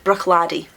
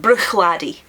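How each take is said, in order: First: The first syllable ends in a throaty ch sound. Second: The first syllable ends in a throaty ch sound.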